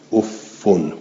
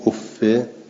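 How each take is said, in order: First: It ends in an u vowel plus n. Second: It ends in an i vowel without n. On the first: "به ذمه منبنن" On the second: "غیر منبن"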